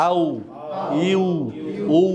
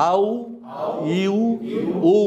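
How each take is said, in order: No difference in how they are said.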